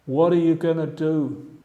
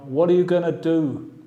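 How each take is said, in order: First: Going to is reduced to gonna. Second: The same.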